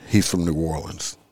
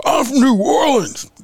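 First: Said in the usual way. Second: High, louder mock threat, hammed up; exaggerated parody of a scary line; mock tough guy. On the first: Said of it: "Did that scare anybody?". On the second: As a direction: glare and announce it like a comic menace. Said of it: "if I looked at you and said".

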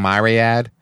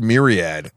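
First: "myriad" with a long I in the first syllable; corrected pronunciation. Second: "myriad" with a short first vowel, not MY; mispronounced myriad. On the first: Retold or imitated. Quoting the man who corrected him, "myriad" said MY-ree-ad. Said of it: "he's like, "It's actually myriad". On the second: Shown as a demonstration. Recalling a word he used before being corrected, "myriad" said MEER-ee-ad. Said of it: "U S C fuck corrected me".

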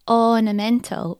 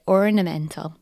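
First: Ornamental with no r sound after the vowel, said "onamental"; non-rhotic ornamental. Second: Ornamental with a clear r after the first vowel, "orrnamental"; rhotic ornamental. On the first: Host copying Daniel Craig's film line, non-rhotic ornamental. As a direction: drop the r in ornamental like a Southern gentleman. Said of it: "Hear how he says ornamental". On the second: Host giving her own everyday rhotic ornamental. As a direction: say ornamental with its r sound, as a rhotic speaker. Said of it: "where I would say ornamental". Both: Shown as a demonstration.

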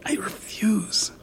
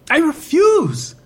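First: Slow unvoiced whisper; hissed whisper. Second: Firm refusal. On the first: Woman alone refusing to leave, slow whisper. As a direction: refuse under your breath. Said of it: "she hissed". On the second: Acted. Woman repeating her refusal aloud, high and firm.

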